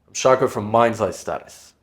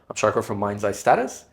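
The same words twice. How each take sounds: First: The pitch falls at the end like a statement. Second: The pitch rises at the end like a question. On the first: The speaker sounds certain and final. The speaker calls it right. "Down talk. You can practice it right now" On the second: The speaker sounds uncertain. The speaker calls it wrong. "And try up talk as well"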